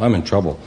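It is said flatly, with little emotion.

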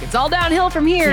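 It sounds upbeat, as if things get easier.

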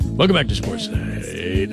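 It is said in a smooth jazz-DJ voice.

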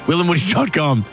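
It is said in an urgent, pressing way.

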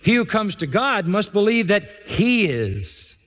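The final 'he' is emphasized.

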